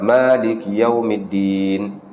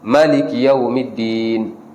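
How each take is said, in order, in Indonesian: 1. Vokal pertama pada Maliki dibaca panjang. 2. Vokal pertama pada Maliki dibaca pendek. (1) "dibaca dengan panjang, dengan mad" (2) "boleh juga dibaca dengan qasar"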